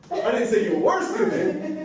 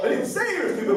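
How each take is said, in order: First: The stress is on "were". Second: The stress is on "say".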